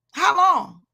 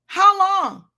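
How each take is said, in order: First: Pressing the question louder; insistent call. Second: Louder and higher, peak of the build; climactic cry. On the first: Preacher voicing God's question to Saul, loud insistent call. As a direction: push the rebuke home. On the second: Preacher voicing God's question to Saul, climactic loud cry. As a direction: drive the question to its top. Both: Retold or imitated. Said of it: "that asked Saul".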